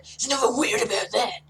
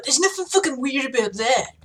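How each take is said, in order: First: Tough-guy gruffness, held steady; gruff. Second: Gruff voice slipping into a bro lilt; a bit bro-y. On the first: The speaker redoing the hairdresser line, gruff. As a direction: keep it gruff, no bro lilt. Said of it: "you gotta maintain the, the gruffness". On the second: The speaker defending hairdressing, slipping bro-y. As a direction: let the tough guy turn slightly bro-ish. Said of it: "I went a bit broy there". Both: Shown as a demonstration.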